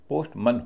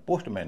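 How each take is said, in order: First: The last syllable has a weak vowel, like mun. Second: The last syllable has a full vowel, like man. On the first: The speaker calls it right. "पोस्टमन होता है" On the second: The speaker calls it wrong. "इसका उच्चारण पोस्टमैन नहीं होता"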